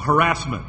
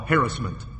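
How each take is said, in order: First: The word is said the newer way. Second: The word is said the traditional way. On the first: The speaker calls it wrong. "you hear somebody say a word on the radio" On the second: The speaker calls it right.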